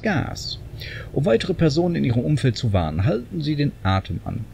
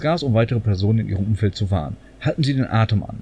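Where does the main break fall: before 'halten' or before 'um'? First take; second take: before um; before halten. First: The main break comes before 'um weitere Personen'. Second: The main break comes before 'halten Sie'. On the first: Warning others goes with holding your breath. The speaker calls it wrong. "Und das war jetzt super betont" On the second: Shouting gas serves to warn others. The speaker calls it right.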